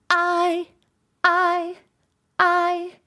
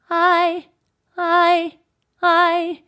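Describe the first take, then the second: First: "I" sung high with an abrupt glottal start; harsh glottal attack on I. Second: "I" sung high, sliding gently into the pitch; eased onset on I. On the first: Teacher showing a hard glottal onset on "I". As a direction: slam the glottis shut before "I". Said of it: "very harsh and hard and the glottis". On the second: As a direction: ease into "I" with no glottal catch. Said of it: "do I wanna go more like". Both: Shown as a demonstration.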